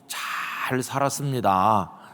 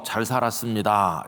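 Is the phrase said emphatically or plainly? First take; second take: emphatically; plainly. First: The phrase is said with strong added emphasis. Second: The phrase is said plainly, without extra emphasis. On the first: I lived with satisfaction and gratitude. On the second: I tried to live upright and avoided wrongdoing.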